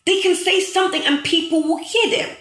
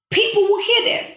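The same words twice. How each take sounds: First: Rising fervour. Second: Much higher and louder, rising on hear; impassioned peak. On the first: Telling followers influencers get heard, rising fervour. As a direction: lift the line like a preacher, rising at the end. Repeats point, voice climbing. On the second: Hammering home to viewers, impassioned peak. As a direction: hit the top of the build, almost calling out. Repeats point even higher. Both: Real, not acted.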